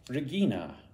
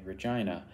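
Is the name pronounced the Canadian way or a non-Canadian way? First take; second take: non-Canadian; Canadian. First: The name is pronounced in a non-Canadian way. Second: The name is pronounced the Canadian way.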